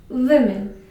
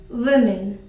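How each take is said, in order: Both takes have the same delivery.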